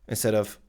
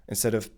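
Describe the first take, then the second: Both takes have the same delivery.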